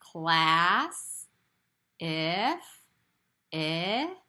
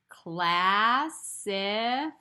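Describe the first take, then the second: First: The word is stretched out slowly in separate parts. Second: The word is said faster as one smooth word. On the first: "Say it with me slowly. I'm going to stretch it out" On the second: "Say it a little faster now"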